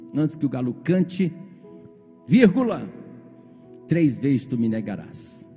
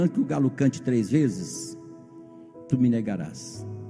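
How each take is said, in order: First: The pause comes after 'cante'. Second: The pause comes after 'três vezes'.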